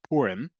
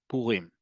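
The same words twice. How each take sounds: First: The stress is on the first syllable. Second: The stress is on the last syllable. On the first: This is how some people grew up saying it. "if you grew up saying" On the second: This is how it is said in modern Hebrew in Israel. "the emphasis is on the last syllable"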